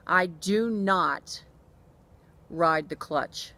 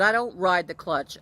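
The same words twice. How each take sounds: First: "I do not ride the clutch" very slow, each word spaced, "not" hit hard; stress on NOT. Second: "I don't ride the clutch" said louder and firm; firm denial. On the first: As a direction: spell out "do not" word by word to the mechanic. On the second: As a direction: push back at the mechanic firmly. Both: Retold or imitated. Denying mechanic's blame on phone.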